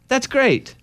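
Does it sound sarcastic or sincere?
sincere. It is said with a sincere tone.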